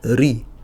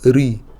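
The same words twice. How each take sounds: Both takes have the same delivery.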